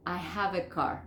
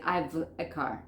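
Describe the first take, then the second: First: "have" sounded as a whole word; full form. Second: Slow "I've" as one syllable; contracted "I've a car", slowly; wrong contraction. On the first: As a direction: say "I have a car" uncontracted. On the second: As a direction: shrink "have" to a V in "I've". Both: Shown as a demonstration. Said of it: "No puedo decir".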